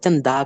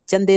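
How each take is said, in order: First: The word ends with an 'a' vowel. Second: The word ends with an 'e' vowel. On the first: The speaker calls it right. "चंदा कहना है" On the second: The speaker calls it wrong. "चंदे नहीं"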